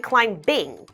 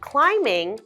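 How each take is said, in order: First: A b sound is pronounced after the m. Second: No b sound is pronounced after the m. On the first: The speaker calls it wrong. "we don't say climbing" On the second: The speaker calls it right. "Let's pretend the B's not there"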